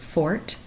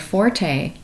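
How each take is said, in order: First: The word sounds like fort. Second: The word does not sound like fort. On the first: The speaker calls it right. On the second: The speaker calls it wrong.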